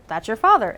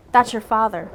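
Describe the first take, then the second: First: "father" turned up into a question. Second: Said in the usual way. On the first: Shown as a demonstration. Reader corrects her line to a question, rising on "father". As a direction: lift the end on "father" to make it a question. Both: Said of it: "It's a question".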